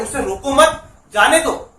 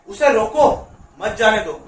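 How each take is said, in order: First: "रोको मत" run together, then a pause before "जाने दो"; pause after मत. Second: "रोको" set off by a pause, then "मत जाने दो" together; pause after रोको. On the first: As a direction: break after "मत", stressing it. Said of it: "और दूसरा वाला बोल रहे हैं". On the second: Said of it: "मतलब ये बोल रहे हैं कि उसे रोको, जाने मत दो". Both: Shown as a demonstration.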